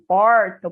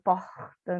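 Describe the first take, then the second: First: The R is curled back, strong and retroflex. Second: The R is made at the back of the throat. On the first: This is the rural interior accent. "é o R retroflexo, é o R caipira" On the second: This is the Rio de Janeiro accent. "Ele acontece aqui no fundo da garganta"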